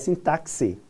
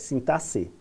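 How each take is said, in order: First: The x is not sounded as an s. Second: The x is sounded as an s. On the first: The speaker calls it wrong. "Não é sintaxe" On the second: The speaker calls it right. "é sintaxe, como, como se fosse som de S"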